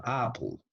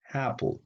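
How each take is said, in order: First: Apple with an open Spanish "ah"; open A demo. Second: Apple with the front A of English cat; front A demo. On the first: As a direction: say Apple as "AH-pl", high and falling. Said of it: "cuando la A predomina en la palabra". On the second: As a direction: say Apple high and falling, A leaning toward "eh". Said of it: "se pronuncia así, mira". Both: Shown as a demonstration.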